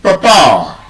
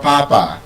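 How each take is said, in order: First: "Papa" as puh-PAA, stress on the second syllable; correct British pronunciation. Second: "Papa" stressed on the first syllable; full first vowel in "Papa", falling away after it; wrong pronunciation. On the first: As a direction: schwa first, then a long strong PAA in "Papa". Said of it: "The correct pronunciation". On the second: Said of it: "it's not". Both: Shown as a demonstration.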